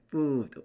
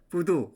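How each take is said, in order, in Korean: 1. 모음이 길고, 길게 끌어요. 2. 모음이 짧고, 한국어 리듬이에요. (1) "이걸 끌어야 돼. food 이렇게" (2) "우리나라 음으로 food 하면은 영어 같지가 않아요"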